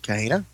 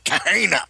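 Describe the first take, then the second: First: It is said in a plain, ordinary voice. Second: It is said in a put-on pirate voice. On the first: "How do you pronounce that, I suppose?" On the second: "I should have just gone pirate and like"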